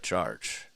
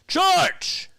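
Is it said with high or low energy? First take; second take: low; high. First: It is said flatly with little energy. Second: It is shouted with big, loud energy.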